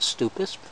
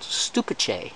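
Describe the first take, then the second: First: The word ends with an 'us' sound. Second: The word ends with an 'ice' sound. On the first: The speaker calls it wrong. "not stupus" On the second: The speaker calls it right. "it's called stupice"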